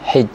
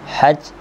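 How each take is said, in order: First: The vowel after the h is an i sound. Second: The vowel after the h is an a sound. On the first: "kasrah akan ha" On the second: "dibaca dengan fathah akan huruf ha"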